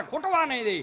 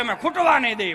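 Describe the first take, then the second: First: Said in the usual way. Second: Proud shout. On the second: Retold or imitated. Buttermilk's promise voiced loudly.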